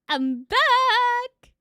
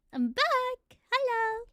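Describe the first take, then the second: First: High, loud, joyful yell; excited shout. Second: High, cheerful call; excited shout. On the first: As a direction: announce your return triumphantly. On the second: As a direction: greet the chat joyfully. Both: Real, not acted. Stream returns after crash.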